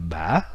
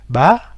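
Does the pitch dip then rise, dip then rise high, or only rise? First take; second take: dip then rise high; only rise. First: The pitch dips, then rises much higher. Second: The pitch only rises throughout. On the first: "l'accent euh, du tilde euh, ba" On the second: "l'accent aigu est beaucoup plus facile parce que ça ne fait que monter"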